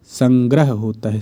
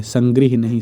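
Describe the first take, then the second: First: संग्रह said as sangrah, plain a before h. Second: संग्रह said as sangrih, i before h; संग्रह said with i, wrong. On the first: (संग्रह को संग्रह, अ के साथ बोलें) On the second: (संग्रह को गलत ढंग से, इ के साथ संग्रिह बोलें) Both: Shown as a demonstration.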